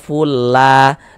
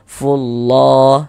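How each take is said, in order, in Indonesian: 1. Bunyi L-nya tipis dan ringan. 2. Bunyi L-nya tebal dan berat. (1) "Jangan dibaca fulla" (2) "ditebalkan sehingga kita baca fullah seperti itu"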